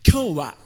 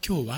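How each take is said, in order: First: Every sound is articulated fully and distinctly. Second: The sounds are relaxed and slightly blurred together. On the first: "比較的はっきり発声されるNHK のアナウンサーでも、今日はというふうにはやってませんよね" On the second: "実際読むときには、今日はって言いますよね"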